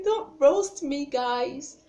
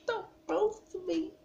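First: High, loud, drawn-out mock plea; playful pleading. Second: Very high mock-pitiful plea; small-voiced pleading. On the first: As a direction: beg slowly and loudly, half joking. Playfully begs viewers for mercy. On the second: Repeats the plea more softly.

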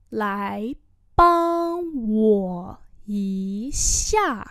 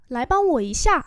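First: Broken into slow separate syllables; slow teaching repeat. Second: Said in the usual way. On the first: Shown as a demonstration. Teacher slowly models the phrase for students, drawn out. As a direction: stretch every syllable for beginners. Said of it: "slow repeat". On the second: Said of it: "normal model".

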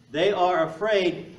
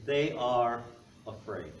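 First: "They are afraid" slowed and louder, every word weighted; preacher driving the point home, slow and loud; emphatic repeat. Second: Said in the usual way. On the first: Real, not acted. Repeats key phrase twice.

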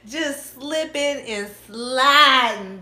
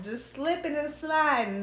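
First: Loud, slow, high drawn-out tease; sing-song teasing drawl. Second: Said in the usual way. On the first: Real, not acted. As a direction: stretch every word out playfully.

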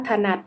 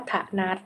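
First: Said in the usual way. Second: ถนัด split as ถะ-หนัด; syllable-by-syllable reading. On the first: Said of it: "คำว่าถนัด". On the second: Shown as a demonstration. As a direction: sound out ถนัด as ถะ, then หนัด. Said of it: "อ่านว่าถนัด".

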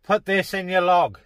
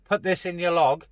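Both takes have the same delivery.

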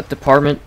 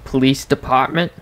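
First: Said in the usual way. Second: "department" with a Boston dropped r; Boston accent. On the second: Shown as a demonstration. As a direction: say "department" like a Bostonian, pah for par. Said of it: "like, a Bostonian accent".

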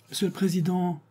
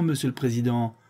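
First: High pitched cry of address; exclaimed. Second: Said in the usual way. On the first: A narrator's reading. Séraphin crying out to the court president, high. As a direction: cry out to the judge, much higher. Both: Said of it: "s'écria Séraphin".

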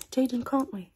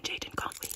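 First: Suddenly voiced and louder. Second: Whisper. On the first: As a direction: pop out of the whisper loudly. Same words repeated voiced and louder. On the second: Acted. Same words whispered then voiced.

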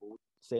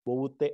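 First: ബോവൂസെ the Indianized way, s in place of t; ബോവൂസെ softened to s as said in Kerala; Indian pronunciation. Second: ബോവൂത്തെ pronounced the proper Syriac way, t not s; ബോവൂത്തെ with a crisp t in the middle syllable; correct Syriac pronunciation. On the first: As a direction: say ബോവൂസെ with an s sound, bo-voo-se. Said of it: "Indian പശ്ചാത്തലത്തിൽ പറയുമ്പോഴാണ് ബോവൂസയായി മാറുന്നത്". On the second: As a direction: say ബോവൂത്തെ with a clear hard t sound, bo-voo-the. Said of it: "ബോവൂത്തെ എന്നാണ് ശരിക്കും അത് പറയേണ്ടത്". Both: Shown as a demonstration.

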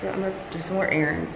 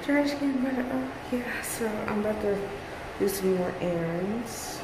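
First: Muffled, a bit faster; through fencing mask. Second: Muffled behind a mask; through fencing mask. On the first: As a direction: speak through a face mask. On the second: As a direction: talk through a face mask. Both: Real, not acted. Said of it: "I hope you can hear me in my mask".

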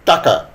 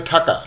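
First: Said in the usual way. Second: ঠাকা with an aspirated first t, thaka; mispronounced aspiration. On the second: Shown as a demonstration. Teacher showing a slip in saying taka, aspirated ঠাকা. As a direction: start ঠাকা with a puff of breath after the t. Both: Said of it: "এটা উচ্চারণ করতে গিয়ে".

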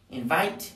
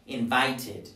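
First: Said in the usual way. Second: "invited" as in-vite-id; "invited" with t released into "id"; added -ed syllable. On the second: Shown as a demonstration. Teacher drilling verbs in t, "invited" said in-vite-id. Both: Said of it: "todos los que terminen en t".

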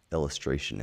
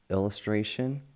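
First: Said in the usual way. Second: Illustration? asked with a rising, quizzing tune; questioning rise. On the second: Shown as a demonstration. Parent quizzing a child on a word, rising tune. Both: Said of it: "Illustration is what we call the art".

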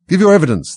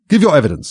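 First: High, loud angry command. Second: High, loud regal order; commanding. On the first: King repeating his order to the Hatter, angry. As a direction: demand it angrily, pitched well up. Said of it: "the king repeated angrily". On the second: King to the nervous Hatter in the witness box, commanding. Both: A narrator's reading.

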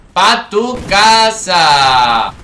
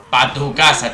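First: Very slow, stretched taunt; drawn-out send-off. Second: Said in the usual way. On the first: Real, not acted. Gamer sending a killed enemy home, long drawn-out taunt. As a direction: stretch every word of the send-off.

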